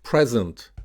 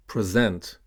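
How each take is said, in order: First: PRESent, stressed on the first syllable. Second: PreSENT, stressed on the second syllable. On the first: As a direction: say Present as a noun, PREZ-ent. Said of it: "stressed on the first syllable". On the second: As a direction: say present as a verb, pre-ZENT. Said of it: "stressed on the second syllable". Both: Shown as a demonstration.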